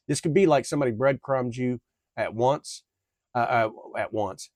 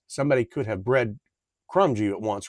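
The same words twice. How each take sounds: First: Tripping over the words; stuttering. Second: Said in the usual way. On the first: Real, not acted. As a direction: stumble and repeat the phrase. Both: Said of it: "I am stuttering on my damn words".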